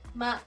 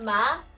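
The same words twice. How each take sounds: First: The pitch stays level throughout the syllable. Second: The pitch rises throughout the syllable. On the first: "one straight" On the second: "The second one is going up"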